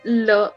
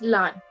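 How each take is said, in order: First: The vowel is an 'er' sound. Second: The vowel is an 'ah' sound. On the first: The speaker calls it right. "learn is le" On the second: The speaker calls it wrong. "but you say it as lan"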